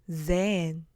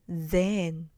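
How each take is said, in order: No difference in how they are said.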